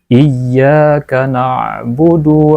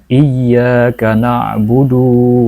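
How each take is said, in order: First: The final vowel of na'budu is kept short. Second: The final vowel of na'budu is drawn out long. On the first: The speaker calls it right. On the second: The speaker calls it wrong.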